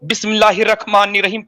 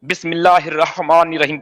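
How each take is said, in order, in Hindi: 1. इस h की जगह रगड़ वाली kh की आवाज़ आती है। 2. इस h को गले की गहराई से सांस के साथ बोला जाता है। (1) "ख़ै लगा देते हैं" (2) "हलफ से निकलता"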